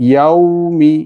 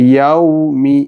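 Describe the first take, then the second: The two takes are said the same way.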